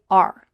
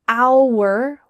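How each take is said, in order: First: The word is said quickly and reduced. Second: The word is said slowly and fully. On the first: The speech is fast and casual. "in fast conversations, we just say our" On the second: The speech is slower and more intentional. "with this slower, clearer pronunciation"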